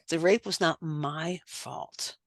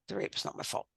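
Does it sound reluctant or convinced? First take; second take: convinced; reluctant. First: It sounds convinced and believing. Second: It sounds reluctant and dutiful.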